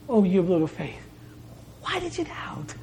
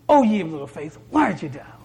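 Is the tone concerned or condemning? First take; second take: concerned; condemning. First: The tone is gentle and concerned. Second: The tone is harsh and condemning. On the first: The speaker cares and urges the listener on. The speaker calls it right. "in a way of concern and urging" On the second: The speaker is rebuking the listener. The speaker calls it wrong. "these words of condemnation"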